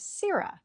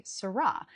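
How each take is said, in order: First: SIR-rah, first syllable sir stressed, rah light. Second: Sir-RAH, stress on the second syllable rah; wrong stress on second syllable. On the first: Teacher giving actors the right American sirrah, first syllable stressed. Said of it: "The standard American pronunciation of this word is sirrah". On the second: Teacher showing actors the common mistake, stress on rah. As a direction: sirrah with the weight on the last syllable. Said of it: "put the emphasis on the second syllable". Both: Shown as a demonstration.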